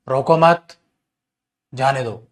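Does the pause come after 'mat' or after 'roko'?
after mat. There is a pause right after 'mat'. The person is let go. "अगर रोको मत के बाद कोमा लगाओगे"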